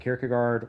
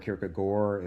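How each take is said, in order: First: The name is said in a plain, everyday way. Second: The name is said in a fancier, more foreign way.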